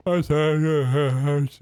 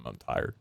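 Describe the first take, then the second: First: Said through a real yawn. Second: Said in the usual way. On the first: Real, not acted. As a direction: stretch it out mid-yawn. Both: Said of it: "That was a yawn".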